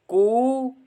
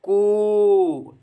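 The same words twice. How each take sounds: First: The vowel is held for a short time. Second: The vowel is held for a long time. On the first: "पहली बार जब अक्षर को बोलता है तो एक मात्रा का प्रयोग करता है" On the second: "तीसरी बार तीन मात्राओं"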